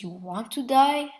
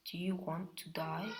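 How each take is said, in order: First: Said in the usual way. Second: Hushed, softer threat; quiet menace. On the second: Acted. Naruto quietly threatening Sato, hushed menace.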